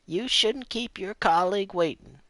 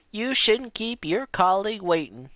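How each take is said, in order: First: Imitating the lady. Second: Imitating the lady, higher. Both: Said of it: "That's a bit better".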